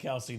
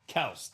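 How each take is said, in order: First: The name is two syllables, ending in 'ee'. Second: The name is one syllable, ending in 's'. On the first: This is what everyone calls him now. "But I think we all call him Kelsey now" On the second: This is the technically correct pronunciation. "His name is actually pronounced Kels, technically"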